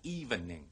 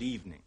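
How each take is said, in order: First: The word is said with three syllables. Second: The word is said with two syllables. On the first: The speaker calls it wrong. "唔好講evening" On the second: The speaker calls it right. "得兩個音節嘅啫"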